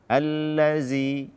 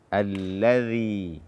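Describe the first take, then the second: First: The middle consonant is a 'z' sound. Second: The middle consonant is a voiced 'th' sound. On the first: The speaker calls it wrong. "Jangan sampai diganti dengan zai. ... tidak" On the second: The speaker calls it right. "ujung lidah bersentuhan dengan ujung gigi seri atas"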